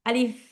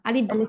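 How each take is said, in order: First: The word ends with an f sound. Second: The word ends with a p sound. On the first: The speaker calls it right. "আমরা হচ্ছে আলিফ ফ বলবো শেষে।" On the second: The speaker calls it wrong. "কেউ প বলবো না বা ব বলবো না, আলিফ আলিফ এরকম বলবো না"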